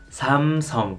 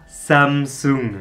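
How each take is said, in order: First: The name is pronounced with Korean sounds. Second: The name is pronounced with French sounds. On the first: The speaker calls it right. "il faut dire Samsung" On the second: The speaker calls it wrong. "La prononciation à la française est complètement fausse"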